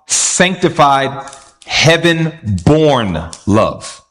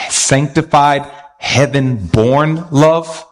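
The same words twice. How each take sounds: First: Sanctified, heaven-born love drawn out slowly; stress on heaven-born love. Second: Sanctified, heaven-born love stretched out slowly; stress on heaven-born love. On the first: Preacher stressing heaven-born love slowly to church. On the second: Preacher emphasizing heaven-born love slowly to congregation. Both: Shown as a demonstration. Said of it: "why I'm emphasizing".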